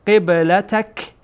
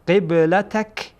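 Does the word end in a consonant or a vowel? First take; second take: consonant; consonant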